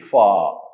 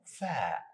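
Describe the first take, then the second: First: The letter is said heavy, with a full sound. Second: The letter is said light, with a thin sound. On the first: The speaker calls it wrong. "Don't say fa" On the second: The speaker calls it right.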